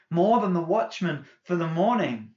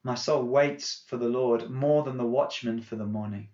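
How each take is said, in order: First: More than the watchman for the morning repeated higher and louder, MORE hit hard and falling; repeated phrase rising with emphasis. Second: Said in the usual way. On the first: Shown as a demonstration. Pastor repeating the psalm line to the church, building emphasis. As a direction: lift the echoed line up and punch more.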